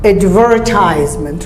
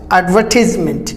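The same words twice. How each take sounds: First: Advertisement as ad-verr-TIES-ment; American advertisement with a clear r; American, r sounded. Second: Advertisement as ad-VUH-tis-ment; British advertisement, falling; British, silent r. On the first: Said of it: "R is not silent". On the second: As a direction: drop the r in advertisement, short "tis". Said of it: "British it is silent". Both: Shown as a demonstration.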